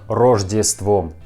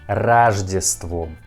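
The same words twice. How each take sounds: First: The first vowel sounds like a full O. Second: The first vowel sounds like A. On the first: The speaker calls it wrong. "not Рождеством" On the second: The speaker calls it right. "we pronounce a letter O in uh, Russian word Рождеством like A"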